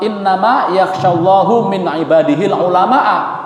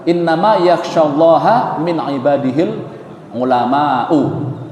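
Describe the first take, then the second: First: Allah ends in u, ulama ends in a. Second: Allah ends in a, ulama ends in u. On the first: God fears the scholars. The speaker calls it wrong. "Kebalik harokatnya" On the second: The scholars are the ones who fear God. The speaker calls it right. "Innama yakhshallaha, itu yang benar ya"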